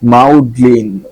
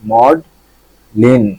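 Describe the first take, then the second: First: The first vowel sounds like 'ow' in cow. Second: The first vowel sounds like 'aw' in law. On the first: The speaker calls it wrong. "আমি মাউ, এম এ ইউ, মাউ করতেছিলাম" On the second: The speaker calls it right. "এটা হবে কি মড লিন"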